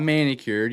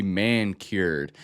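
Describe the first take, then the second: First: "manicured" as one word with a short i in the middle; usual one-word pronunciation. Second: "man-cured" said as two words, man and cured; split pronunciation. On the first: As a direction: say "manicured" like the nail treatment, man-i-cured. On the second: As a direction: say "man-cured" slowly as "man" plus "cured". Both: Shown as a demonstration. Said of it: "Not manicured".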